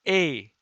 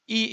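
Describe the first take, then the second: First: The letter is said the Italian way. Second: The letter is said the English way. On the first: "In Italian is A" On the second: "E in English"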